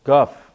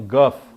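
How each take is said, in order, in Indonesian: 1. Kata ini diawali dengan bunyi g yang keras. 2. Kata ini diawali dengan bunyi g yang keras.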